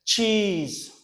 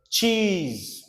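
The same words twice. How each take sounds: The two takes are said the same way.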